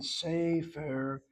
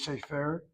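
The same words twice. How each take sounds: First: The stress is on the first syllable. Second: The stress is on the last syllable. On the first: The speaker calls it right. "notice how I'm saying it" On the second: The speaker calls it wrong. "I'm not pronouncing the word as Sefer"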